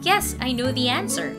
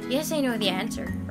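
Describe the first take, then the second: First: The words are clearly pronounced with an open mouth. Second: The words are mumbled with little mouth movement. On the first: The speaker calls it right. "you can say" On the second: The speaker calls it wrong. "instead of saying"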